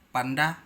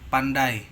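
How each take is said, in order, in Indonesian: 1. Kata itu dipenggal di dalam diftong. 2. Kata itu diucapkan lancar, diftongnya tidak dipenggal. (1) "Jangan sampai Anda mengatakan pandai" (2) "huruf diftong ai, au, e dan oi tidak dipenggal"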